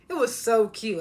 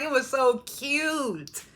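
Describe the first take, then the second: First: Said in the usual way. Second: So cute stretched out slowly; slow, drawn-out gush. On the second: Shown as a demonstration. Vlogger gushes over matching outfits, slow drawn-out voice. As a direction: linger on It was so cute.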